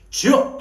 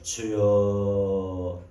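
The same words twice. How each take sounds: First: It is said quickly, with strong, forceful energy. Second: It is said slowly, with weak, drawn-out energy. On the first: The prayer keeps going without a break. The speaker calls it right. "주여 하고 따다다닥" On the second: The prayer has already lost its force. The speaker calls it wrong. "이런 볼장 다 본 거예요. 이러면 안 돼요"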